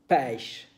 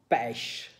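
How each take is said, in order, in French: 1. C'est prononcé avec un accent québécois. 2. C'est prononcé avec un accent québécois.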